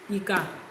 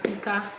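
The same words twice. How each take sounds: First: The pitch goes from mid to low. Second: The pitch stays mid on both syllables. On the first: "It can be pronounced as Redo" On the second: "that's Rere"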